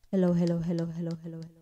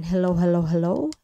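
First: Hellos fading down to nothing; repeated mic-check hellos, volume turned steadily down; voice disappearing. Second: Said in the usual way. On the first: Shown as a demonstration. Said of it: "Nawala na yung boses ko". (humihinang boses hanggang mawala) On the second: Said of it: "And microphone".

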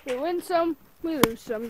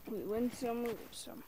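First: Said in the usual way. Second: Much softer, lower resigned murmur; quiet shrugging aside to himself; soft resigned repeat. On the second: Shown as a demonstration. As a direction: let it fall away under your breath.

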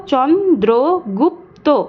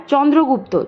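First: "চন্দ্রগুপ্ত" slowly as চন্-দ্রো-গুপ্-তো; four separate stretched beats on "চন্দ্রগুপ্ত"; split into syllables. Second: Said in the usual way. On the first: Shown as a demonstration. Teacher answering how it breaks up, "চন্দ্রগুপ্ত" one syllable at a time. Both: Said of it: "চন্দ্রগুপ্তকে ভাঙলে আমরা কি পাবো".

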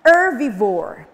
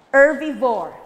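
First: Herbivore said loud, falling; model word. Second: Herbivore said loud again, falling; model word. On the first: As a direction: say herbivore for the class to repeat. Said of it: "everybody follow [name]". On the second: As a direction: repeat herbivore clearly. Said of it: "Once again". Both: Shown as a demonstration.

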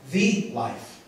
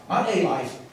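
First: "the" stretched and hit hard, set against "a"; stress on THE. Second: Said in the usual way. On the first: Shown as a demonstration. Preacher to congregation, stressing "the" in "the life". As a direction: lean on "the" as the only one. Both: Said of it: "Not a life, the life".

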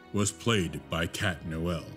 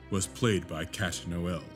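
The two takes are said the same way.

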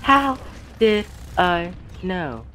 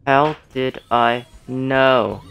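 First: How squeaked very high, then did I know dragged out slowly; high drawn-out disbelief at the kill; stunned disbelief. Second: How did I know drawn out slowly at normal pitch; slow replay. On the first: Real, not acted. Gamer stunned by a sudden death, high and slow. Surprised at dying to Hanzo. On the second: Shown as a demonstration. Streamer repeating the line for viewers, slowly drawn out. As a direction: stretch each word of How did I know. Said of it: "Watch this".

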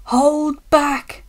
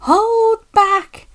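First: Raised-pitch conspiratorial call; voiced stage whisper; mock whisper. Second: High-pitched, gleeful squeal; loud, high, mischievous singsong; giggly. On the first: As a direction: pass it on slyly, as if whispering. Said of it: "whispered the van to the trucks". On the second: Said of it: "giggled the trucks to each other". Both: A narrator's reading.

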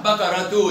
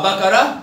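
First: بقرة تو as one word "bakaratu"; sounded taa. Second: بقرة said as "bakarah"; pausal haa. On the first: Teacher confirms pupil's answer, بقرة تو ending in -tu. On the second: Teacher confirms pupil's answer, بقرة ending in -ah. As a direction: end بقرة without a t. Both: Shown as a demonstration. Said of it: "بالتاء المربوطة".

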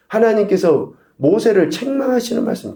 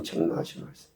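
First: Said in the usual way. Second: Soft whispered echo of 책망하시는 말씀; hushed whispered repeat for emphasis. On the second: Shown as a demonstration. Preacher repeats key phrase.

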